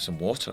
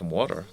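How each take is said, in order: First: It is said in a British accent. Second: It is said in an American accent. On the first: Americans won't understand the request. The speaker calls it wrong. "I'm not going to say" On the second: Americans understand the request. The speaker calls it right. "I speak in an American accent just so I can get by"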